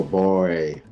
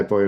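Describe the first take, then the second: First: Put-on "Boy" stretched long in a Southern drawl; drawn-out Southern boy. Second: Said in the usual way. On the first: Shown as a demonstration. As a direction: drag out the vowel in "Boy". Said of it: "and they'll go". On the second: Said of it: "we say boy".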